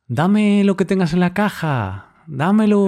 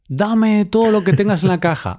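First: It is said in a softer, polite tone. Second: It is said in a rude, demanding tone.

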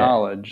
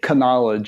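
First: The initial k sound is silent. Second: The initial k sound is pronounced. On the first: The speaker calls it right. "you say knowledge like that" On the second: The speaker calls it wrong. "You don't say knowledge"

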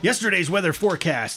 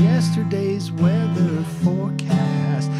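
First: It is said with strong, lively energy. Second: It is said with low, weak energy. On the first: The speaker calls it right. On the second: The speaker calls it wrong.

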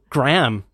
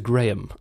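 First: It is said with an American accent. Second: It is said with a British accent. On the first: "Can you do an impression?" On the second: "As opposed to"

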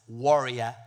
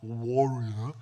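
First: The first syllable is said with a 'wa' sound. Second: The first syllable is said with another vowel. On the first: The speaker calls it right. "It's warrior, W-A warrior" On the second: The speaker calls it wrong. "not warrior"

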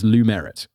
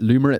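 First: The middle sounds like the word 'merit'. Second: The middle does not sound like 'merit'. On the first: The speaker calls it right. "it's Lumerit because there's like a merit" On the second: The speaker calls it wrong. "I want to pronounce it Lumerit so bad"

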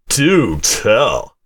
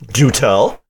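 First: It is said in an imitation of another's voice. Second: It is said in the speaker's natural voice.

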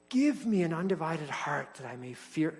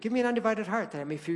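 First: The line is said slowly and earnestly. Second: The line is said quickly and lightly. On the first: It is a sincere request. The speaker calls it right. "you pray that verse with seriousness" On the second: It sounds like a throwaway saying. The speaker calls it wrong. "You say it real fast"

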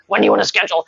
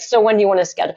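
First: The question sounds hostile and curt. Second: The question sounds friendly and matter-of-fact. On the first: The speaker is being cold and unfriendly. "He's not like this hostile" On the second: The speaker is being direct but kind. "He just was like"

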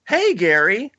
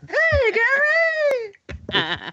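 First: The greeting is said flatly. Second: The greeting is said with enthusiasm.

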